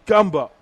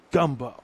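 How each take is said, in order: First: Gumbo said louder, with relish; punchy gumbo. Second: Said in the usual way. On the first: Real, not acted. Host savoring the menu, Gumbo punched loud. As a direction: hit Gumbo louder the second time.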